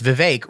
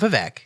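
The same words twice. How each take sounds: First: The last syllable rhymes with cake. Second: The last syllable does not rhyme with cake. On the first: The speaker calls it right. "It's Vivek rhymes with cake" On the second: The speaker calls it wrong. "it's not Vivek"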